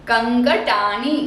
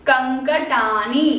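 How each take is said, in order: The two takes are said the same way.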